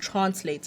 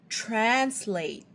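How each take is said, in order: First: The word is said in a South African accent. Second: The word is said in an American accent. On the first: The listener could not understand it. "if I say it in a South African accent" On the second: The listener understood it at once. "in an American accent"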